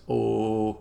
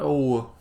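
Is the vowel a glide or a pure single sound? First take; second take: pure; glide. First: The vowel stays one pure, unchanging sound. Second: The vowel glides into a second vowel sound. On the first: The speaker calls it right. "it's just the pure phoneme. Um, no diphthongs" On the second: The speaker calls it wrong. "not O"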